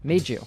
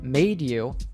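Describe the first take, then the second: First: The d and y merge into a j sound. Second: The d and y stay separate sounds.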